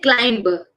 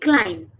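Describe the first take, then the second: First: A b sound is pronounced at the end. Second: The word ends on m, b silent. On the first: The speaker calls it wrong. "We don't say climber" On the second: The speaker calls it right. "We stop there and the B is silent"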